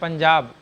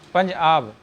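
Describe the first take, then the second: First: It is said as one joined word. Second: It is said as two separate words. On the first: It names a whole state. The speaker calls it wrong. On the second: Five waters, meaning five rivers of mercy. The speaker calls it right.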